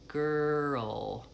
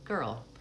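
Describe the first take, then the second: First: The word is said slowly and drawn out. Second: The word is said quickly and compactly. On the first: "If you say it slowly" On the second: "I'll say it more quickly"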